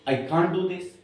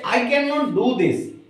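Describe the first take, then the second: First: Can and not are merged into one short word. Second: Can and not are said as two full words.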